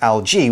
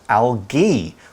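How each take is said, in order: First: The g is a soft j-like sound. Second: The g is a hard g sound. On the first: "with a soft one" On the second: "with a hard G"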